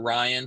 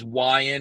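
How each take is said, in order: First: The first sound is pronounced as a clear R. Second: The first sound is pronounced like a W.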